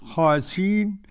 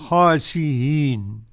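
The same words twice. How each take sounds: First: The glottal stop is dropped entirely. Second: The glottal stop is softened toward a vowel. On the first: "وقف عليها حمزة بالحذف" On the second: "أو التسهيل بين"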